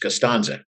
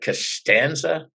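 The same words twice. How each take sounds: First: The name is said in its standard form. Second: The name is said in an altered form. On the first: The speaker calls it right. "it's Costanza" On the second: The speaker calls it wrong. "I know I'm mispronouncing his name"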